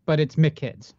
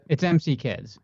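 First: Put-on "McKids" run together as one word, mick-kids. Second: Put-on "M C Kids" said as separate letters, em see kids; spelled out M C Kids. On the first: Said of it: "which makes no sense". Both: Shown as a demonstration.

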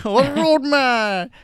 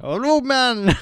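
First: Loud, high, slow Jamaican roadman drawl on "roadman"; drawn-out Jamaican roadman. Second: Jamaican roadman. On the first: Host hamming up his Jamaican roadman impression, slow and loud. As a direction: stretch "roadman" out, louder and higher, in a Jamaican roadman voice. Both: Acted. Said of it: "Jamaican roadman".

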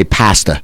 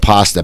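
First: "pasta" with a short a as in "past"; Philly-style flat-a "pasta"; father's accented pasta. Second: Said in the usual way. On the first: Retold or imitated. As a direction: say "pasta" like PASS-tuh. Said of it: "My, my father had that". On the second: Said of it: "instead of pasta".

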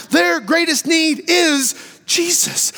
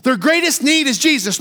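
First: Slow, shouted, every word weighted; preached proclamation. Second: Said in the usual way. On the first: Shown as a demonstration. Preacher to congregation, shouting it slowly. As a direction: proclaim it to the whole church slowly.

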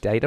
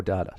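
First: Data said "DAY-ta"; data with an American "day" sound; American pronunciation. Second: Data said "DAH-ta"; data opening on "dah"; non-American pronunciation. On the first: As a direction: say data with a long "ay" in the first syllable. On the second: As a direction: say data with an open "ah" in the first syllable. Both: Shown as a demonstration. Offers two pronunciations to compare.

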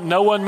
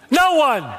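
First: Said in the usual way. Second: "No one" thrown out high and loud with a laugh; shouted punchline. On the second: Shown as a demonstration. Pastor answering his own Greek question, laughing shout. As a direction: bark "No one" at them, laughing. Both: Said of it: "you know what no one means".

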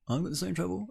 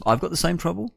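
First: Muttered aside. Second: Said in the usual way. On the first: Shown as a demonstration. Host repeats line as aside.

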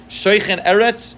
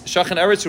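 First: Shoichen Eretz drawn out slowly, pitched higher, rising on Eretz; slow quoted verse. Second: Said in the usual way. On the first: Shown as a demonstration. Teacher quoting the verse to his class, slow and lifted. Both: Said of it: "as the pasuk says".

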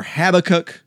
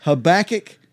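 First: Habakkuk said HAB-uh-kuk, first syllable stressed; second pronunciation option. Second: Habakkuk said huh-BACK-ick, middle syllable stressed; first pronunciation option. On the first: Cohost offering the other option, Habakkuk stressed on HAB. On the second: Cohost offering pronunciations to choose from, Habakkuk stressed on BACK. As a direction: punch the BACK in Habakkuk, lifting at the end. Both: Shown as a demonstration. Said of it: "what's your favorite pronunciation of it".

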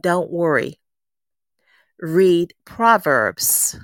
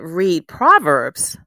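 First: Slow calm divine command, each word set apart; a lightly voiced God, gentle and very slow. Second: Slow, louder, puzzled echo of the command; puzzled she repeats God's words back, slow and a touch louder; baffled echo. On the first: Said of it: "That voice spoke to me and said". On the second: Retold or imitated. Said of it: "and I said".

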